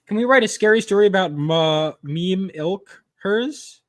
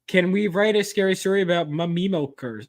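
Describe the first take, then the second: First: It is read at a normal, halting speed. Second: It is read quickly, running the words together.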